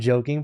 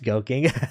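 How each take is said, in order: First: The word begins with a J sound. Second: The word begins with a hard G sound. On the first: "I'm joking" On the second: "pronounced goking. Okay. Just G G and J"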